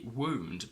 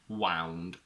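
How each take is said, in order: First: The vowel sounds like the oo in moon. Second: The vowel sounds like the ow in cow. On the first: It names an injury. "When W O U N D refers to injury, we say wound" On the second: It is the past form of wind. "it's also the past of the verb wind, which becomes"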